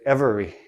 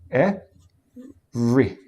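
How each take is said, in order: First: The word is said with three syllables. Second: The word is said with two syllables. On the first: The speaker calls it wrong. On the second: The speaker calls it right.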